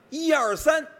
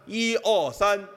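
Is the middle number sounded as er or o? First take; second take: er; o. First: The middle syllable is a clear er sound. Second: The middle syllable comes out as o.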